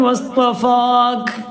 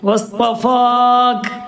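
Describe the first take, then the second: First: The word ends on a bare k sound. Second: The word ends on a bare k sound.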